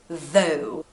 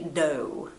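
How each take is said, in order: First: The word begins with a soft th sound. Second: The word begins with a hard d sound. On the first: "this th, th sound" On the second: "like a big D sound"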